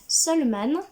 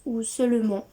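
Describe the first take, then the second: First: Seuleman said with a final nasal an like Seule-man; first guess. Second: Seulement said like the French word seulement, ending in nasal ent; second guess. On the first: Booktuber guessing the illustrator's name, Seuleman with nasal an. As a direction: try Seuleman as Seule-mahn, ending in a nasal an. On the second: Booktuber correcting the illustrator's name as Seulement. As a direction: say Seulement like the everyday word meaning only. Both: Shown as a demonstration. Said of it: "excusez-moi pour ma prononciation".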